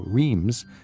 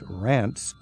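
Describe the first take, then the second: First: It is read as spelled, not rhyming with France. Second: It is said to rhyme with France. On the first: The speaker calls it wrong. "it's spelled like Reims. The average traveler would look at that and go" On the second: The speaker calls it right. "but it's Reims"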